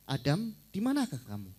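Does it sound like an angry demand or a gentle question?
gentle question. It sounds like a gentle, questioning call. The asker is calling out kindly, not in anger. The speaker calls it right. "Kan seperti itu"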